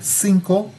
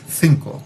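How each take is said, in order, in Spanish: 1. Empieza con sonido s. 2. Empieza con sonido th. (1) "no dicen cinco para el número" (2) "sino que dicen cinco. Ah, y eso es este sonido"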